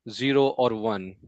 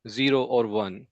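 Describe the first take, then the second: No difference in how they are said.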